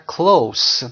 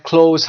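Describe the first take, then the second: First: "close" ending in a clear S; close with S sound. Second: "close" ending in a voiced Z; close with Z sound. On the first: Teacher explaining second pronunciation, "close" ending in unvoiced S sound. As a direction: say "close" as kloass, meaning near. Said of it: "که با صدای سه در اینجا". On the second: Teacher explaining first pronunciation, "close" ending in Z. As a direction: say "close" as kloze, meaning shut. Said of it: "تلفظ اول این کلمه close". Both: Shown as a demonstration.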